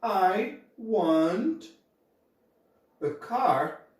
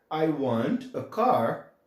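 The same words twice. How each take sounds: First: Said in the usual way. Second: "I want a car" very slowly, word by word; slow model sentence. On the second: Shown as a demonstration. Teacher slowly models the English sentence for students. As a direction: drag out each word for learners. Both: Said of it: "eu vou falar".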